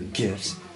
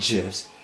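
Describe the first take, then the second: First: The word begins with a hard G sound. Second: The word begins with a J sound. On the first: This is the Americanized way of saying it. "they're Americanized now" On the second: This is the original way of saying it. "it's a J, not a G"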